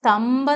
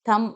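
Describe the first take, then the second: First: A 'b' or 'p' sound ends the word. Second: The word ends on the 'm' sound. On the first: The speaker calls it wrong. "തമ്പ് എന്നല്ല പറയേണ്ടത്" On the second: The speaker calls it right. "B is silent"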